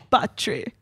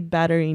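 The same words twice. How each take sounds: First: It is said with a Jamaican accent. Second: It is said without a Jamaican accent. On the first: This is how a coworker said it. "because he had the Jamaican accent" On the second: This is how the speaker says it today. "So I say battery now"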